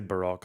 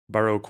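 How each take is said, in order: First: It is pronounced in a non-American way. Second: It is pronounced the American way. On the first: The speaker calls it wrong. "they don't say Baroque" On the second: The speaker calls it right. "They actually say Baroque"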